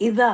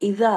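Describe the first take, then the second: First: The middle consonant is a soft dh sound. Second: The same.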